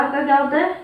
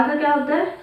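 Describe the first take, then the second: No difference in how they are said.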